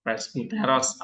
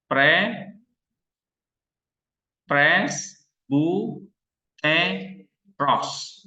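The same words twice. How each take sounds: First: Said in the usual way. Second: Pres, bu, te, ros with pauses between; split into syllables. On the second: Shown as a demonstration. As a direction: break Presbuteros into its syllables, one by one. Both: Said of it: "Berapa suku kata?".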